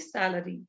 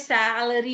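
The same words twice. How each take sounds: First: The syllables are said lightly, without extra stress. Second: Every syllable is stressed heavily. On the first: The speaker calls it right. "You have to say salary" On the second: The speaker calls it wrong. "You cannot say salary. ... Why do you stress all?"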